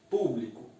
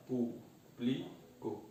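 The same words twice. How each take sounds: First: Said in the usual way. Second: PÚBLICO softly, slowly split, pú-bli-co; syllable by syllable. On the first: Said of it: "eu separo público". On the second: Shown as a demonstration. Teacher separating the word for students, PÚBLICO in slow syllables. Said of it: "eu separo".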